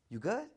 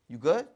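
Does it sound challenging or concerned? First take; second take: concerned; challenging. First: It sounds like caring concern for someone. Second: It sounds like a challenge to fight.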